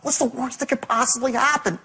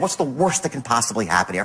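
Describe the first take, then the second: First: It is said in a pleading tone. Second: It is said in a plain, confident tone.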